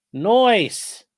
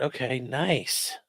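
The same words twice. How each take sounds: First: "Nice" as "noice", high, loud and falling; goofy voiced nice. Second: Said in the usual way. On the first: Reading the weather to chat, a jokey high "noice". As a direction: toss off a cartoonish "noice". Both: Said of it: "Seventy-two at the airport".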